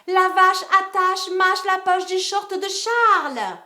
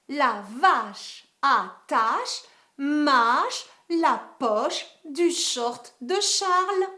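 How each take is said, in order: First: The sentence is said very quickly. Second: The sentence is said a little faster. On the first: "cinquième vitesse" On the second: "un peu plus vite"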